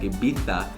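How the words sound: Spanish style, with a lisped th sound. "they pronounce it Ibiza, and like a lisp a little bit"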